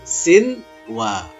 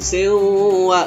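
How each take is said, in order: First: The n sound is pronounced clearly before the w. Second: The n sound is dropped before the w. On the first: The speaker calls it right. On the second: The speaker calls it wrong.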